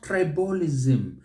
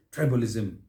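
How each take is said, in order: First: "tribalism" as tri-BA-li-ZIM; wrong sing-song ending. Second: "tribalism" as TRI-balizm; light, short end on "tribalism"; correct stress. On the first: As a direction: drag out the later syllables of "tribalism". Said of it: "creating a sing-song". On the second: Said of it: "it is tribalism". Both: Shown as a demonstration.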